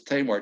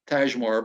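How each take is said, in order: First: The name is said without a j sound. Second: The name is said with a j sound. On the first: The speaker calls it right. "but it's Tamar" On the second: The speaker calls it wrong. "I was pronouncing it Tajmar"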